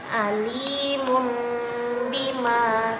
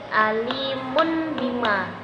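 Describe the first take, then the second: First: A nasal m sound comes before bima. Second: A clear n sound comes before bima. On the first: The speaker calls it right. "ba-nya itu menjadi apa, suara mim ya" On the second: The speaker calls it wrong. "bukan alimun bima"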